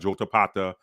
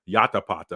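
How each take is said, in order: First: The name begins with a J sound. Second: The name begins with a Y sound. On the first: "It wouldn't have been with a J" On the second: "Probably would have been Ya Yatapata"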